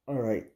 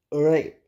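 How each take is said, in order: First: Said in the usual way. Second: Louder, firm all right; emphatic all right. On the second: Real, not acted. Vlogger pulling himself together, louder "All right". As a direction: punch out "All right" to wrap things up. Winding down the vent.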